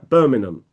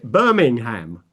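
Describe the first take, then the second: First: It is said in a British accent. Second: It is said in an American accent.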